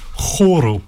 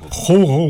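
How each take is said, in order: First: The R is rolled with the tongue tip. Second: The R is guttural, made in the throat. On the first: The speaker calls it right. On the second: The speaker calls it wrong.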